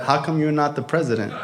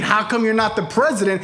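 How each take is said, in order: First: Low, offhand question from a father; understated put-down. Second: Raised, insistent misquote of a father; mock quoting. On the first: Retold or imitated. Father sees the vice president plaque, understated put-down. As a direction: deliver it low and deadpan. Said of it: "My father said". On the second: Friend corrects what the son heard, mock quoting. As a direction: throw the question back in a higher voice. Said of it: "He's not saying".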